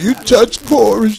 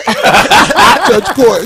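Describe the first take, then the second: First: Put-on elderly voice. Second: Put-on old man voice. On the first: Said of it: "He sounded elderly than a motherfucker when he said". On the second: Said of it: "He sound like an old boy".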